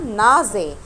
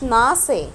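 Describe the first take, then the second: First: The middle consonant is a voiced z sound. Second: The middle consonant is a voiceless s sound. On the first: The speaker calls it right. "انا نطقتها نازي" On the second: The speaker calls it wrong. "ما قلتش ناسي"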